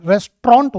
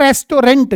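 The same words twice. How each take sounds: First: "रेस्टोरेंट" squeezed into two syllables, res-tront; corrected pronunciation. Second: "रेस्टोरेंट" with a full middle syllable, res-to-rent; common mispronunciation. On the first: Teacher correcting students on "रेस्टोरेंट", pronounced res-tront. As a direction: say "रेस्टोरेंट" as res-tront, middle vowel dropped. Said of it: "रेस्टोरेंट होती है बेटा". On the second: Teacher quoting how people misread "रेस्टोरेंट", mispronounced as res-to-rent. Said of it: "जो गलत है". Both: Shown as a demonstration.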